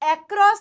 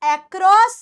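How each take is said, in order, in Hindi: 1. पहला स्वर 'eh' जैसा सुनाई देता है। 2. पहला स्वर 'eh' जैसा सुनाई देता है।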